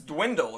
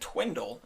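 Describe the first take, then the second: First: The word begins with a D sound. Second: The word begins with a T sound. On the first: The speaker calls it right. "It's dwindle, right?" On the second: The speaker calls it wrong. "I think he said twindle"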